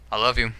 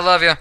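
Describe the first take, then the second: First: The tone sounds warm and sincere. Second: The tone sounds offhand and dismissive. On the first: The speaker truly means it. "The first tone, I love you, is sincere and honest" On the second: The speaker says it to brush someone off. "the second one was more like a okay, yeah, you know"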